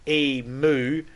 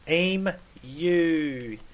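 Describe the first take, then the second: First: The word ends with a plain 'moo' sound. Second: The word ends with a 'myoo' sound. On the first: The speaker calls it wrong. "where's the fucking O? There's no O there" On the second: The speaker calls it right. "we actually pronounce the U on the end of it"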